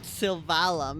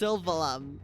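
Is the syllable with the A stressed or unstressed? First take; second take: stressed; unstressed. First: The syllable with the A is stressed. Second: The syllable with the A is unstressed. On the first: The speaker calls it wrong. "Not Sylvalum" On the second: The speaker calls it right. "Don't stress the A"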